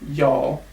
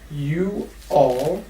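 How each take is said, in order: First: The two words are blended into one syllable. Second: The two words are said separately. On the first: "we also blend it. And we kind of say y'all, like this, just y'all" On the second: "When we have the phrase you all"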